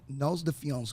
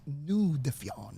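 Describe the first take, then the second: First: The name is pronounced the English way. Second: The name is pronounced the French way.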